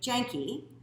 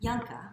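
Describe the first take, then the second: First: The surname is said with a Canadian pronunciation. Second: The surname is said in its original pronunciation. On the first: "Canadian way" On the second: "I'm trying to pronounce it the proper way"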